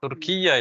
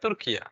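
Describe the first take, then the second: First: The y sound is doubled and held long. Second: The y sound is single and short. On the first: The speaker calls it wrong. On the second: The speaker calls it right.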